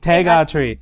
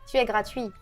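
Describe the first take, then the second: First: Tu and es merge into one syllable. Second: Tu and es are said as separate syllables.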